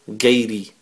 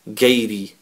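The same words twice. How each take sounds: Both takes have the same delivery.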